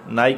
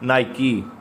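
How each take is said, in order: First: The word ends on a consonant 'k' sound. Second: The word ends with an 'ee' vowel sound. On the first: The speaker calls it wrong. "नाइक नहीं कहना" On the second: The speaker calls it right.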